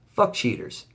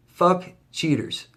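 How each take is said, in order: First: Said in the usual way. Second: Fuck cheaters, each word drawn out slowly; slow emphatic curse. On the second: Real, not acted. Vlogger slowly cursing cheaters to his viewers, emphatic. Repeated curse, slowed and higher.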